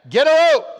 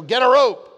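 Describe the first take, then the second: First: A rope yelled high and loud; louder Get a rope shout. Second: Loud, higher mock cowboy call; quoting the Get a rope ad. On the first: Retold or imitated. Preacher topping his own quote of the ad, loud shout. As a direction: belt it out with gusto. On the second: Preacher quoting the hot sauce ad about bullies, loud mock call. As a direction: bark it like the old ad. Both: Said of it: "that hot sauce commercial".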